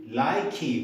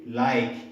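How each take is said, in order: First: An extra vowel sound is added at the end. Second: The word ends without a final vowel sound. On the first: The speaker calls it wrong. "We cannot say likey" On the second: The speaker calls it right. "We have to say like"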